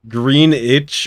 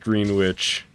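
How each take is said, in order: First: The W sound is left out in the middle. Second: The W sound is clearly pronounced in the middle. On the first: "the W's silent?" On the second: "W's not silent, dude. ... It's totally pronounced Green Witch"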